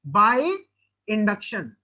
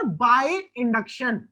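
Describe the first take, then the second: First: Said in the usual way. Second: By induction dragged out very slowly; very slow drawn-out answer. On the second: Shown as a demonstration. Teacher drilling the class on the third method, very slow. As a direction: stretch By induction out slowly, word by word. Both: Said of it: "तीसरा कैसे कर सकते हैं sir?".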